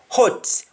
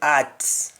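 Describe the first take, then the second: First: The word begins with an h sound. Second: The word begins without an h sound. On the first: "instead of hot" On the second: "we don't have the accent for H"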